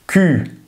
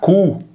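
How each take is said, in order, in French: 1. La voyelle est un u français antérieur arrondi. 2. La voyelle est un u postérieur, à la manière espagnole.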